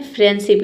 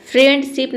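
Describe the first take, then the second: First: फ्रेंडशिप with no D, "fren-sip"; silent D. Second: फ्रेंडशिप with a clear D, "friend-sip"; D sounded. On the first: Teacher models the right reading, फ्रेंडशिप with silent D. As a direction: drop the D in फ्रेंडशिप. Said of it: "इसे पढ़ेंगे". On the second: Teacher shows what it is not, फ्रेंडशिप with sounded D. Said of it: "नहीं होता है". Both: Shown as a demonstration.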